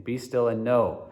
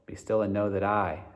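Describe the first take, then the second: First: "know" stressed, falling at the end. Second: "still" stressed while "know" stays light. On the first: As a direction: land firmly on "know". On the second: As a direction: push "still", then move on through the rest. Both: Shown as a demonstration. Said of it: "emphasizing the words".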